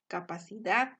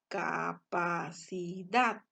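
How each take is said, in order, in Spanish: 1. La palabra se dice de corrido, como una sola unidad. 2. La palabra se divide en sílabas separadas.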